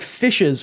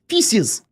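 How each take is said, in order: First: It is said in a plain, ordinary way. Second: It is said in an odd, funny accent. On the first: "Instead of saying like fishes" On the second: "we say feces. Like a funny little accent"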